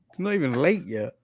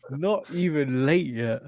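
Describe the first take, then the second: First: "late" stressed, falling at the end. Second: "not" stressed, the whole line slow. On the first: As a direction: hit "late" in "It's not even late yet.". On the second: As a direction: lean on "not", drag the rest out slowly. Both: Real, not acted.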